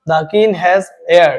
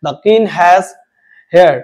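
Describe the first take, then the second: First: "heir" begun on the vowel, like air; silent H. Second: "hair" with the H sounded, for heir; wrong pronunciation. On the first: Teacher corrects class, "heir" said like air. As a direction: drop the h of "heir" entirely. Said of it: "ই থেকে উচ্চারণ হচ্ছে". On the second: Teacher shows class the mistake, "hair" with audible h. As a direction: voice the h at the start of "hair". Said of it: "এইচ এর উচ্চারণ হবে না". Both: Shown as a demonstration.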